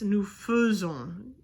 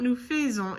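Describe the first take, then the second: First: "faisons" with first vowel as a schwa; slow "faisons", AI sounded like a French E; correct pronunciation. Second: "faisons" with first vowel as "fay"; "faisons" mispronounced with the AI sounded as "ay"; wrong pronunciation. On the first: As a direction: say "faisons" like "fuh-zon", drawn out. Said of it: "like it's an E instead of an A I". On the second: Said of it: "It's not nous faisons". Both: Shown as a demonstration.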